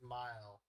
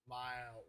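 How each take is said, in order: First: The vowel is short and plain. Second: The vowel is long and drawn out. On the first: "not just mile" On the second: "kind of like a drawl, as most Americans say"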